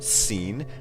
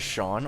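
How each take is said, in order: First: The name is said like 'seen'. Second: The name is said like 'shawn'. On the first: The speaker calls it wrong. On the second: The speaker calls it right.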